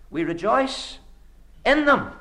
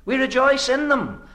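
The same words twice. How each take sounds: First: Preacher lands hard on "them", raising pitch and volume; stress on THEM. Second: "rejoice" leaned on, sentence kept high; preacher presses "rejoice" firmly, then falls away; stress on REJOICE. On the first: Preacher driving home Paul's words to the congregation, stress on them. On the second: Preacher repeating the verse to his listeners, weight on rejoice. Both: Shown as a demonstration. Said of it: "They are the cause of our rejoicing".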